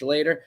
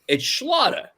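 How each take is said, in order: First: The name does not rhyme with otter. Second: The name rhymes with otter. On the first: This is how other people say the name. The speaker calls it wrong. "People say" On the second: This is how the family says the name. The speaker calls it right. "it rhymes with otter"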